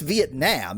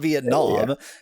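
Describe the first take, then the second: First: The final vowel is a harsh, flat 'a'. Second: The final vowel is a soft, open 'ah'. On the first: This is the actual Vietnamese pronunciation. The speaker calls it right. "The actual pronunciation in Vietnamese is quite a like a harsh ah" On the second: This is a hypercorrection. The speaker calls it wrong. "we pronounce it wrong"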